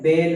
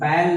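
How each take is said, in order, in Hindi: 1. स्वर बंद है, जैसे 'day' में। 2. स्वर खुला है, जैसे 'cat' में। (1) "बेल है" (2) "ये बैल नहीं है"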